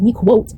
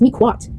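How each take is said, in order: First: The last syllable rhymes with 'quote'. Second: The last syllable does not rhyme with 'quote'. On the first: The speaker calls it wrong. "it's not gonna be pronounced MeQuote" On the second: The speaker calls it right. "it's MeQuote"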